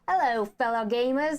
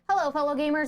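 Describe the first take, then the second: First: It is said in an Australian-sounding accent. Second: It is said in his usual announcer voice. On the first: "That's not a British accent. That's Australian" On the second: "my announcer voice is too announcery"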